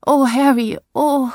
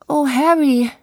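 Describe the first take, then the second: First: High, loud melodramatic sigh of oh; stagey swooning cry; theatrical lament. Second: High, loud stagey cry, stress on Harry; theatrical lament. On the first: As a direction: play the tragic heroine, hammed up. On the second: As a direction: overplay the heartbroken wife. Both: Acted. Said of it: "rief Selina theatralisch".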